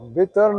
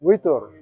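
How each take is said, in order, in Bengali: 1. এটি 'v'-এর মতো ধ্বনি দিয়ে শুরু হয়, ঠোঁট স্পর্শ করে। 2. এটি 'w' ধ্বনি দিয়ে শুরু হয়, ঠোঁট স্পর্শ করে না। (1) "ভিতর না" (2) "দুই ঠোঁট লাগবে না"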